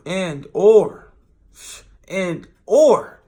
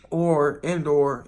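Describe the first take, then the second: First: "and or" blurted out much louder; "and or" loud, jokey insistence. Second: Drawn-out, musing "and or"; "and or" said slow and deliberate. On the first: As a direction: belt out "and or" playfully. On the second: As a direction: stretch "and or" slowly, thinking. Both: Shown as a demonstration. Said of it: "or I say and too".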